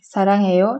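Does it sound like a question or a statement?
statement. It has flat statement intonation. I love.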